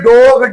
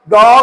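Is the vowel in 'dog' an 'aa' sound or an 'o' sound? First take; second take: o; aa. First: The vowel is a rounded 'o' sound. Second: The vowel is an open 'aa' sound. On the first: The speaker calls it wrong. "हम जो है वो ओ की sound पढ़ रहे होते हैं" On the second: The speaker calls it right. "ये आ की साउंड देगा"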